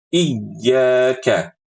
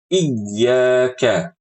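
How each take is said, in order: Both takes have the same delivery.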